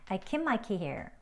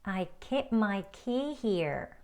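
First: The sentence is spoken at a faster, conversational pace. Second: The sentence is spoken at a slower pace.

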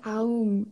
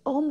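First: The vowel glides from a through u. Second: The word has one plain o vowel. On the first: "it was A-U-M as well" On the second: "I used to say om"

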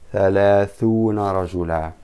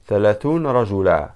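First: The first word's n carries a short a vowel. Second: The first word ends in a silent, stopped n. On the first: The speaker calls it right. "فتحة" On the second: The speaker calls it wrong. "they don't say ثلاثون ن"

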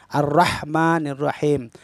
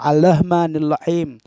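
First: A trilled R sound comes before 'Rahman'. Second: An L sound comes before 'Rahman'. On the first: The speaker calls it right. "Ini jelas sekali ro, ro-nya benar-benar berder- bergetar lidah kita" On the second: The speaker calls it wrong. "Ada sebagian imam ini ro-nya diganti dengan lam. Nauzubillah"

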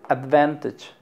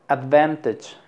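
Both takes have the same delivery.

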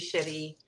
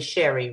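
First: The name is said with a French accent. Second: The name is said with a plain English accent. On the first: "I don't know why I want to say it with a French accent" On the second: "it's probably Sherry, right?"

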